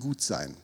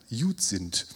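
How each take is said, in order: First: It is said in standard German pronunciation. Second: It is said in Brandenburg dialect pronunciation.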